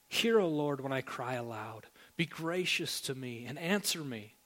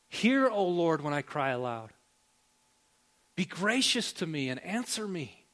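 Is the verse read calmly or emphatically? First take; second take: calmly; emphatically. First: It is read in a calm, plain voice. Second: It is read loudly, as an exclamation.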